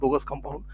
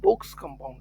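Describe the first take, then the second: First: The first word has two syllables, like bogus. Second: The first word has one syllable, like bogs. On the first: The speaker calls it wrong. "कई लोग बोल देते हैं बोगस compound, पर बोगस compound नहीं है" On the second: The speaker calls it right. "बोग्स compound है"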